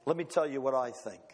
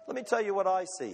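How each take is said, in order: First: A low, solemn voice for God; God's voice. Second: Said in the usual way. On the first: Acted. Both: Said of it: "God looks down and he says".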